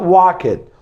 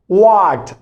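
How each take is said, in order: First: The ending is an added 'id' syllable. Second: The ending is a short t sound. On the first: The speaker calls it wrong. "not walk it" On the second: The speaker calls it right. "Then we have walked"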